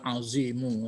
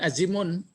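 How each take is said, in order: First: The word ends in a vowel without n. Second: The word ends with a final n sound. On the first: The speaker calls it right. "Ah ya, Sadaqallahul azimu ya" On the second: The speaker calls it wrong. "jangan azimun, kan pantang. Ya, pantang pakai apa? Pakai tanwin"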